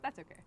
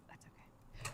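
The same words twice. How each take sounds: First: Said in the usual way. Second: Soft whispered aside. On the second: Real, not acted. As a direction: breathe it out in a whisper. Repeats reassurance, second whispered.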